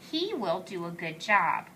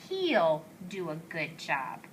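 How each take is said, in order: First: Two full words are said, he and will. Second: The two words merge into one short syllable. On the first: "He will" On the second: "it's the contraction"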